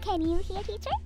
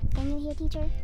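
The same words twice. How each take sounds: First: The voice sounds bright and cheerful. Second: The voice sounds flat and serious. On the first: The speaker calls it right. "Ang dapang paraan ay" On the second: The speaker calls it wrong. "Not like this. ... super serious ka naman"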